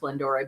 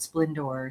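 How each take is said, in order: First: The name ends with a sounded final vowel. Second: The name ends without a sounded final vowel. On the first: This is how the owner says it. "she does have an accent on the E, and she said it is Splendore" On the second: This is how many other people say it. "a lot of people call it Splendor"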